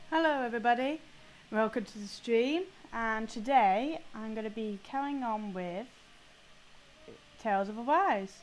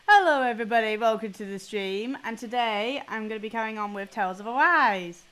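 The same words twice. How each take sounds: First: The tone is dreary and bummed out. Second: The tone is upbeat and lively.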